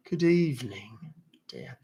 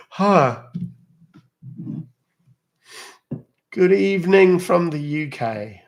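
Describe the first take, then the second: First: Softer mock British "Good evening, dear"; soft mock British accent. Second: Loud, high, slow mock British greeting; mock British accent. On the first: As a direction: drop into a quiet, gentle British "dear". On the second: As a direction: ham up a posh British hello from the UK. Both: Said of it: "You love mimicking British accents".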